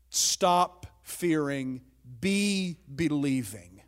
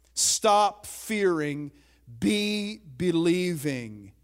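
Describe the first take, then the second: First: Each word drawn out slowly; slow and deliberate. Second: "Stop" hit harder, said slowly; firm repeat. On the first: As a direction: lay out the phrase word by word, slowly. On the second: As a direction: press "Stop fearing" firmly the second time. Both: Shown as a demonstration. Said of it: "In the original language".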